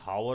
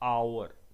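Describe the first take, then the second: First: The word starts with an audible h sound. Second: The word starts with a vowel, no h. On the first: The speaker calls it wrong. "अब गलती से भी हावर मत बोलना" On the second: The speaker calls it right. "Because here एच is silent"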